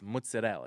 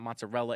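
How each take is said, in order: First: The middle of the word has a d sound. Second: The middle of the word lacks a d sound. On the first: The speaker calls it right. "There's a D" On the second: The speaker calls it wrong. "It's not"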